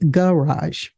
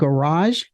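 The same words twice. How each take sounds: First: The stress is on the first syllable. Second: The stress is on the second syllable. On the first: "words can have a stress on a first syllable" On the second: "stress on a first syllable instead of a second"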